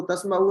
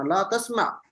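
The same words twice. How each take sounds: First: तस्माउ with an added u ending; wrong final vowel. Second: ला तस्मा ending without any u; correct final jazm. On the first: Teacher warning students off this reading, final u voiced. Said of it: "इसको तस्माउ नहीं पढ़ना". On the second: Teacher giving students the right reading, final jazm. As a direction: stop तस्मा on a vowelless ain. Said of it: "आखिर पे जज़म है". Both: Shown as a demonstration.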